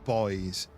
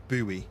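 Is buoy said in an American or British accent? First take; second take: British; American. First: Buoy is said the British way. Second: Buoy is said the American way.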